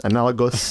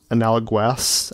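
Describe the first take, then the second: First: Said in the usual way. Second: "analogous" said slowly with a GW, "ana-la-gwass"; mispronounced word. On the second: Real, not acted. Fumbling for a word meaning similar, "analogous" mispronounced as "ana-la-gwass". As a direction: put a "gwass" on the end of "analogous". Stumbles on word, then corrects it.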